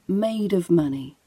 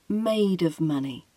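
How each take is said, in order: First: The words run together, with a weak 'of'. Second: The same.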